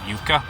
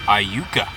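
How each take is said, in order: First: The opening 'I' sound is left silent. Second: The opening 'I' sound is pronounced.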